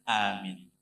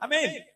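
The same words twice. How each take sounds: First: It is said calmly and evenly. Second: It is said impatiently and exasperated.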